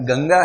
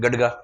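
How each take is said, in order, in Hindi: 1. बीच का व्यंजन नासिक्य ng की ध्वनि है। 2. बीच का व्यंजन d की ध्वनि है। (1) "गंगा है, गंगा ही लिखा हुआ है" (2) "कुछ लोग से क्या पढ़ते हैं? गडगा। गडगा नहीं है"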